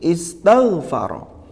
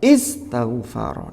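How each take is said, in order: First: The stress is on the 'tagh' syllable. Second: The stress falls on a syllable other than 'tagh'. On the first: The speaker calls it right. "Berarti ada pada tangnya" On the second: The speaker calls it wrong. "kalau kita mengucapkannya nabernya keliru, ya tidak tepat"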